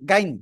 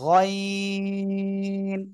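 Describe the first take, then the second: First: The vowel is said without a long stretch. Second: The vowel is stretched out for three beats. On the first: The speaker calls it wrong. "আমি এটা কি ভুল বলেছি?" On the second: The speaker calls it right. "তিন আলিফ টান হবে।"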